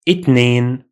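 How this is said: The word begins with a t sound, Egyptian-style.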